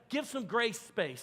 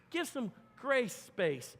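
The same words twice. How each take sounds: First: Grace space said slowly, each word weighted; slow emphatic phrase. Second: Grace space, every word drawn out; slow emphatic phrase. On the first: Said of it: "Say it with me, grace space". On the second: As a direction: press grace space slowly home. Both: Shown as a demonstration.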